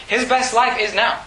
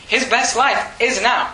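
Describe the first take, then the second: First: Said in the usual way. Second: "His best life is now" said slowly, each word weighed, stress on "life"; slow it down and lean on "life"; slow emphatic repeat. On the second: Shown as a demonstration.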